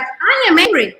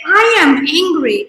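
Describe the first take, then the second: First: "I" pitched high and leaned on, then "am angry" falls; stress on I. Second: "I" lifted and held, "am angry" slow and level; stress on I. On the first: Repeating it to show ownership, "I" stressed high. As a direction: lift "I" high, then let the words fall. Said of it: "it's like". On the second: To show owning anger, a slow deliberate I am angry. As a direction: stretch it out: I… am angry. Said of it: "but if I say". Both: Shown as a demonstration.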